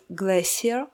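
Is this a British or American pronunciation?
British. It is said with a British pronunciation.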